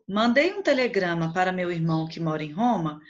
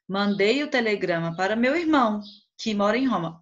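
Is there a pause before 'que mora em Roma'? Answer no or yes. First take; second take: no; yes. First: It runs on with no pause before 'que'. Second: There is a pause before 'que mora em Roma'.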